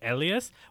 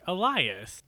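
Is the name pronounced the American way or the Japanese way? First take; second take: Japanese; American. First: The name gets a Japanese-style pronunciation. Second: The name gets an American English pronunciation. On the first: "because they are Japanese people reading the name, they keep saying" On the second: "us Americans would be like"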